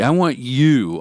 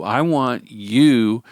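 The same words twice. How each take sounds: First: Said in the usual way. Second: "want" leaned on, drawn out slowly; slow emphatic repeat. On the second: Shown as a demonstration. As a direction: stretch out "want" and mean it.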